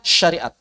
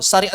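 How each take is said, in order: First: The word begins with an sh sound. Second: The word begins with a plain s sound. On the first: This is the standard form. The speaker calls it right. "Bakunya syariat" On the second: This is the non-standard form. The speaker calls it wrong. "Syariat itu tidak baku"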